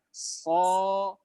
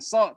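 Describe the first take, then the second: First: The sound flows out with a resonant echo. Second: The sound stops abruptly with a glottal catch. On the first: The speaker calls it right. "dialirkan. ... so ada gema tapi suaranya keluar" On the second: The speaker calls it wrong. "Suaranya jangan di uh, di apa namanya hamzahkan. So tidak"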